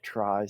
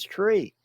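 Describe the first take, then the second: First: The vowel rhymes with 'eye'. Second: The vowel rhymes with 'see'. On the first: This avoids confusion with another term. "let's just call it a try so there's no confusion" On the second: This is the original pronunciation. "the true pronunciation is tree"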